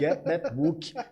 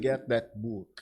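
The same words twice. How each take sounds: First: It is said with a Brazilian Portuguese accent. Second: It is said with a native English accent. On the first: The speaker calls it wrong. "Aí vem o book mesmo" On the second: The speaker calls it right. "ao invés de get that book"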